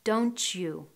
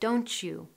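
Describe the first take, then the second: First: The t and you merge into ch. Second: The t and you merge into ch.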